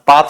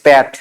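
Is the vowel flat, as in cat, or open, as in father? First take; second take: open; flat. First: The vowel is an open 'ah' sound. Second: The vowel is a flat 'a' as in cat. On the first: This is how it is said in Bengali. "যেটা আমরা বাংলায় উচ্চারণ করি খামার পাত পাহাড়, পাত নয়" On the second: This is the name as written on the map. "That is প্যাট"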